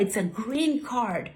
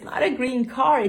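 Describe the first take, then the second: First: "card" with its final D sounded. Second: "card" said as "car", no final D; car without D. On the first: Au pair correcting boy, "card" ending in D. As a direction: finish "card" on a clear D. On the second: Au pair correcting boy, "card" mispronounced as "car". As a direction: drop the D from "card", ending on R. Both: Retold or imitated. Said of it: "it's not a green card. It's a green card".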